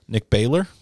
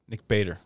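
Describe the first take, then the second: First: Baylor with an L in place of the D; BAY-ler, rising at the end of Baylor; mispronounced surname. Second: Said in the usual way. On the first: Retold or imitated. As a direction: say Baylor as BAY-ler, getting the name wrong. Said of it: "I didn't say Baylor". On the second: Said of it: "And my name is Bader".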